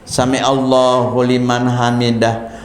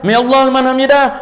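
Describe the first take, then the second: First: It is said slowly and calmly. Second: It is said quickly and hurriedly.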